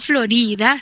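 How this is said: It is pronounced with Spanish sounds. The speaker calls it wrong. "No Florida / Florida es pronunciación español"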